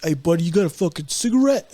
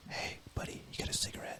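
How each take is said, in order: First: Voiced aloud, mock street-guy ask; casual rough request. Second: Very soft, secretive whisper; whispering in ear. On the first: Biter approaching a man for a cigarette, spoken aloud. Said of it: "So he's like". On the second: Acted. Stranger asking a buddy for a cigarette, whispered. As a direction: whisper it right into someone's ear. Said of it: "is he, like, whispering in your ear".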